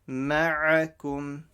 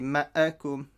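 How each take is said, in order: First: The throat consonant is strong and clear. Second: The throat consonant is weak and unclear. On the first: The speaker calls it right. "say the ayn strong and clear from the middle of your throat" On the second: The speaker calls it wrong. "don't say ma'akum"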